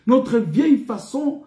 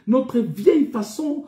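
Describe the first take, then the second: No difference in how they are said.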